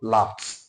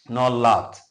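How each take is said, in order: First: The ending is not said as a syllable. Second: The ending is said as an extra syllable. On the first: The speaker calls it right. "What we have is what? Laughed" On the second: The speaker calls it wrong.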